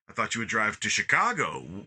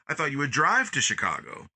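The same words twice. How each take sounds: First: The stress falls on the word Chicago. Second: The stress falls on the word drive. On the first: Chicago was the expected destination, not here. "What are we doing here in in uh, South Bend" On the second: Driving was expected rather than walking. "You emphasize the drive"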